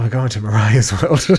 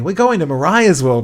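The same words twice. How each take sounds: First: The voice sounds reluctant and dreading. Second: The voice sounds eager and excited. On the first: The speaker is not looking forward to it. "the same sentence, but with a different skew" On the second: The speaker looks forward to it. "normally I'd say"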